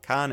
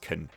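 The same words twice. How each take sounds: First: The word is said in full form. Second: The word is said in reduced form. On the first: The speaker calls it wrong. "it's not" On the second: The speaker calls it right.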